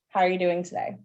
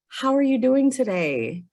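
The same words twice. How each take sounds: First: It sounds cold and uncaring. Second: It sounds warm and caring.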